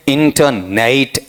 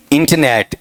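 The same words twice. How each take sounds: First: इंटरनेट spaced out as "in-ta-neit"; इंटरनेट ending in a diphthong; wrong pronunciation. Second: इंटरनेट as "inta-net", short e at the end; इंटरनेट without a sounded r, ending "net"; correct pronunciation. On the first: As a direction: glide the last vowel of इंटरनेट into "neit". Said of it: "ऐसा नहीं होगा". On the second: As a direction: say इंटरनेट with weak middle and plain "net". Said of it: "शुद्ध उच्चारण इस तरीके से आता है". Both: Shown as a demonstration.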